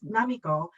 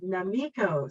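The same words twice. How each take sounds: First: The name is said with a Japanese pronunciation. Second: The name is said with an American pronunciation. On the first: "my name is" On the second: "in America it would be"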